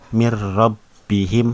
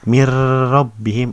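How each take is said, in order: First: The sound before the r is short. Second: The sound before the r is held long. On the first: The speaker calls it right. "Yang benar" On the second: The speaker calls it wrong. "Jadi jangan dilamain. Mir rabbihim itu salah"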